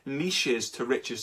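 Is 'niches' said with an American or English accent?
English. Niches is said the English way, not rhyming.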